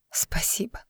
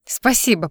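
First: Breathy whisper of Спасибо, much softer; a tearful, whispered Спасибо; whispered thanks. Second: Said in the usual way. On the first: A narrator's reading. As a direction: barely voice Спасибо through tears.

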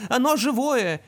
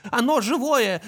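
First: Put-on high excited child voice again; repeated toy phrase. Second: Put-on high child voice, excited; toy voice of little brother. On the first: Toy repeats the little brother's phrase a second time, high. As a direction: echo it like a talking toy. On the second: Toy repeats the little brother's phrase, high and excited. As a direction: squeal it like a small boy's toy. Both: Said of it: "на голос братишки".

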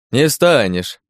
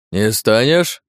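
First: Smirking echo with a falling end; mocking. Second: Mild mock roar, rising to a question; restrained roar. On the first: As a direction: repeat it with a mocking smirk, letting it fall. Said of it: "ухмыляясь насмешливо подьячий". (насмешливо, с ухмылкой) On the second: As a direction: challenge him, only a touch of a roar. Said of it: "заревел толстый казак". (сдержанный грозный вопрос, с подъёмом в конце) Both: A narrator's reading.

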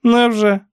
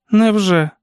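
First: High-pitched, uninterested aunt's retort; indifferent aunt. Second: Put-on high, louder young woman's character voice; niece's brief retort. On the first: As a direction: brush it off in a high character voice. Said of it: "байдуже промовила тітка". (високий байдужий голос тітки) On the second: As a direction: answer the aunt in one high, falling word. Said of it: "тільки й сказала Сюзан". (високий голос племінниці, коротка відповідь) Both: A narrator's reading.

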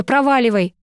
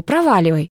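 First: Sharp, raised command; angry. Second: Sighed, resigned dismissal; weary sigh. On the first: Acted. Girl angrily orders her ex away, raised voice. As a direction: throw him out with it. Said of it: "разозлилась я". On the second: A narrator's reading. Girl wearily tells Misha to go, sighing. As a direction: let it out on a tired sigh. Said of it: "вздохнула я".

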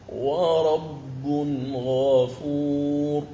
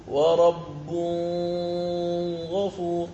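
First: Slow chanted "ورب غفور" with tanween clearly voiced; sung, draw out "غفور" in recitation; sung, correct recitation. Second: "ورب غفور" with tanween hidden into the غ; quick mistaken "غفور" without the clear noon; wrong reading. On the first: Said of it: "إذن قال". (sung, تلاوة "ورب غفور" بإظهار التنوين) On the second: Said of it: "والخطأ أن تقول". (قراءة خاطئة بإخفاء التنوين) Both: Shown as a demonstration.

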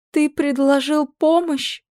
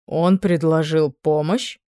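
First: High, slow astonished question; queen marvelling at her son's offer; exclaiming. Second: "Он" lifted, slow questioning rise; king asks the queen, stressing "Он". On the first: Queen exclaims in high mock astonishment. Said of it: "воскликнула". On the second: King asks the queen with a rising stress on "Он". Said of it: "поинтересовался у неё король". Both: A narrator's reading.

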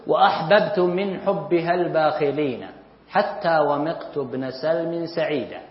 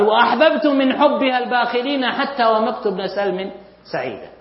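First: Slow, measured recitation of an Arabic verse, stretching each word; slow poem recitation. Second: Said in the usual way. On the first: Shown as a demonstration. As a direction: recite the line slowly, like classical poetry. Teacher recites a classical verse.

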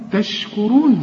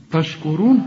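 First: تشكرون with a thin ت and ش; correct light ta. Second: تشكرون starting like طش; wrong heavy ta. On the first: Teacher corrects students, light clean consonant. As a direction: keep the opening of تشكرون light. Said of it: "قول لي تشكرون". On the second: Teacher shows students the error, heavy consonant. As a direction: thicken the ت of تشكرون into ط. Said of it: "خطأ برضو". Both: Shown as a demonstration.

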